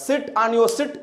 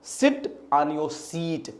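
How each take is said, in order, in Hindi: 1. आखिरी शब्द में छोटा स्वर है। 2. आखिरी शब्द में लंबा स्वर है। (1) "अब लड़का सब गड़बड़ कर देगा" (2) "अगर नॉलेज है तो बोलेगा"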